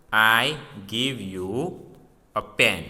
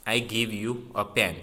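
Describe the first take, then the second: First: Slow, word-by-word reading of I give you a pen; slow example reading. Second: Said in the usual way. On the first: Shown as a demonstration. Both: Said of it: "See the example".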